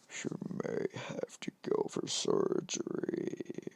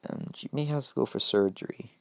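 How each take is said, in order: First: It is said in a put-on Deku voice. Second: It is said in the speaker's own voice.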